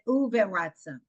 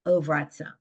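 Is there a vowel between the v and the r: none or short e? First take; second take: short e; none. First: A short e vowel is heard after the v. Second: No vowel is heard after the v. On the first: The speaker calls it wrong. "or is it uveratzon?" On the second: The speaker calls it right. "So it's silent"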